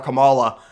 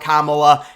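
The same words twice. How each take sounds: First: The name is given a deliberately altered pronunciation. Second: The name is given its standard pronunciation. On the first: The speaker mispronounces the name on purpose in protest. The speaker calls it wrong. "I say it wrong on purpose" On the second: The speaker intended to say the name properly. The speaker calls it right. "I was gonna call her Kamala"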